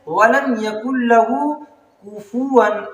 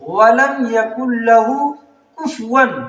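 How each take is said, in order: First: The f sound is followed by a vowel. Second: The f sound has no vowel after it. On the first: The speaker calls it right. "फा पे फतहा है" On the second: The speaker calls it wrong. "फा को जो है साकिन कर देते हैं"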